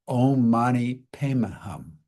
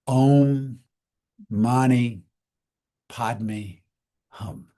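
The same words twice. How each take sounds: First: The third word is pronounced 'pemi'. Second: The third word is pronounced 'padme'. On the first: "In Tibet, they say it ... So the Padme becomes Pemi" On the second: "That's the Sanskrit way of saying it"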